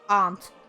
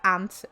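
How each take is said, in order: First: It is said with a posh British accent. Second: It is said with an American accent.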